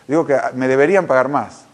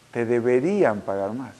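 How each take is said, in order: First: Said in the usual way. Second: Slow, soft echo of a claim; eco reflexivo. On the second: Retold or imitated. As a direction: repeat it slowly and quietly, weighing it. Repite pensativo la frase de ella. (repetición lenta, suave y reflexiva)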